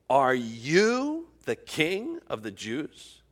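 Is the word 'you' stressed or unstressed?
stressed. The word 'you' is strongly stressed.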